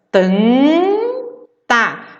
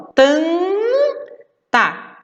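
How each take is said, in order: First: Tanta split Tan-ta, louder, nasal an held; syllable demo. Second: Tanta sung up high, nasal Tan drawn long; syllable demo. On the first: Teacher to pupils, splitting Tanta into syllables. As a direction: stress the Tan of Tanta through the nose. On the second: Teacher to pupils, repeating Tanta high to show syllables. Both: Shown as a demonstration. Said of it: "O N fica lá na primeira sílaba".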